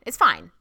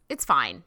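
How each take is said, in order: First: Louder, punched It's fine; emphatic resigned verdict. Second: Said in the usual way. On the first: Real, not acted. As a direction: slam the final word fine down hard. Repeats verdict, much louder.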